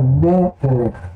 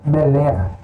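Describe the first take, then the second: First: The stress is on the first syllable. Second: The stress is on the last syllable. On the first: The speaker calls it right. "a primeira sílaba é a tônica" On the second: The speaker calls it wrong. "Se ele não tivesse esse acento aqui... ela seria a última"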